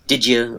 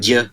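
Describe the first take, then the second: First: The two words blend together into 'didja'. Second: Only a single syllable 'ja' is said. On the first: "it'll often come out as did you" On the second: "or even just ja"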